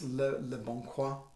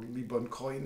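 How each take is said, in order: First: The name is said with French pronunciation. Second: The name is said with English pronunciation.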